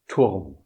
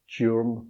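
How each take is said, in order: First: The vowel is a pure, rounded German u. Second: The vowel sounds like an English vowel. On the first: The speaker calls it right. "A German U is pronounced just U" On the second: The speaker calls it wrong. "so the word is not Türm"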